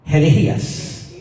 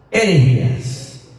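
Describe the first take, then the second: No difference in how they are said.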